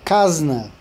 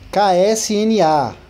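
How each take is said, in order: First: The letters are blended into one word. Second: Each letter is said separately. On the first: The speaker calls it wrong. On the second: The speaker calls it right.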